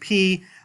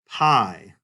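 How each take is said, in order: First: The vowel sounds like the word 'pee'. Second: The vowel sounds like the word 'pie'. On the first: "the more natural sounding Greek pronunciation of this letter" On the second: "the anglicized pi"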